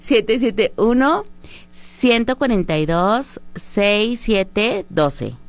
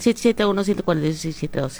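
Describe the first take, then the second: First: The number is said slowly and clearly. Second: The number is rattled off quickly.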